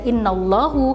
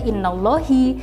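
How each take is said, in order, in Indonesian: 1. Kata ini diakhiri dengan vokal u. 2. Kata ini diakhiri dengan vokal i. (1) "tidak bisa dibaca innallahu" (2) "tidak bisa dibaca innallahi"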